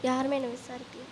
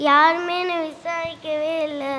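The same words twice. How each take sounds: First: Very soft, low undertone; feed the line under your breath; hushed cue to a fellow actor; quiet prompt. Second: Whiny, self-pitying lament; acted crying. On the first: Real, not acted. Teacher quietly prompts next line. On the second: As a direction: wail that nobody cares. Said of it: "எதுக்கு அழுதுட்டே இருக்க நீ".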